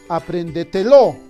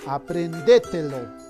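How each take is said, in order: First: The stress falls on the final syllable, lo. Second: The stress falls on the syllable de. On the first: "Quizás sea aguda" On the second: "Quizás sea esdrújula"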